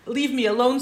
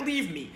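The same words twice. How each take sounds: First: Emphatic divine command. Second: Said in the usual way. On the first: Shown as a demonstration. Teacher voices God's demand to Moshe, louder and higher. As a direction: Leave said higher and louder, rising on the end.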